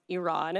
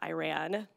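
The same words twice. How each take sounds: First: The first syllable sounds like 'ee'. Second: The first syllable sounds like 'eye'. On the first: The speaker calls it right. "it is pronounced Iran" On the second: The speaker calls it wrong. "It is not Iran"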